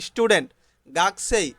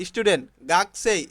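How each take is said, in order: Both takes have the same delivery.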